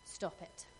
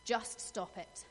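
First: Whispered, breathy "Stop it."; hushed firm command. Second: A voiced, firmer "Just stop it." with weight on "Just"; firm command. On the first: Retold or imitated. Friend hushing her crying friend, whispered firm stop. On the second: Friend putting her foot down, firm voiced command. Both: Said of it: "she looked me in the eye and she said".

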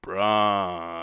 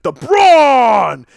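First: Flat, lifeless, zero energy; listless. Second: Loud booming ring call; entrance music call. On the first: Pretend. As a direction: say it like you couldn't care less. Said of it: "most listless impression ... no life whatsoever ... as poorly as possible". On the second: Retold or imitated. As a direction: belt it like the entrance theme. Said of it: "impression of the Sting that opens up Braun's entrance music".

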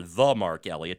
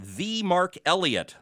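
First: "The" said as THUH, pitched lower; low, unstressed "thuh" for "The"; short-vowel "The". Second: "the" said as THEE, pitched up; "the" rhyming with "see", given weight; long-E "the". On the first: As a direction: say "The" with a schwa, like "thuh". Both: Shown as a demonstration. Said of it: "depending how you want to pronounce".

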